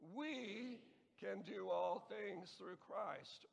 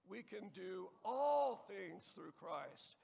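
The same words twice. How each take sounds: First: The word "we" is stressed. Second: The word "all" is stressed. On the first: "emphasize the first word the first time" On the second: "and so on"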